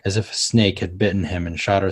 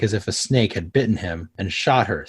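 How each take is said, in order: First: It runs on without a break after 'bitten him'. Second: It has a break after 'bitten him'. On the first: The snake did the shooting. The speaker calls it wrong. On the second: The man did the shooting. The speaker calls it right.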